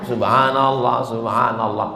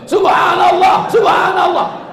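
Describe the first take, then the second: First: It is said aloud but not too loudly. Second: It is shouted very loudly, like raging.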